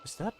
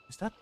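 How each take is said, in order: Both takes have the same delivery.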